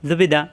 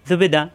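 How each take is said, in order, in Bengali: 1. শব্দাংশগুলো দ্রুত একসঙ্গে জুড়ে বলা হয়েছে। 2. শব্দাংশগুলো দ্রুত একসঙ্গে জুড়ে বলা হয়েছে।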